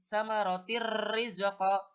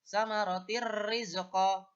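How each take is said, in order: First: The n sound merges into a doubled r. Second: The n sound merges into a doubled r.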